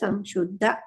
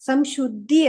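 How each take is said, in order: First: The word ends with an 'a' vowel. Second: The word ends with an 'i' vowel. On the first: The speaker calls it right. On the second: The speaker calls it wrong. "ಸಂಶುದ್ಧಿ ಅಲ್ಲ"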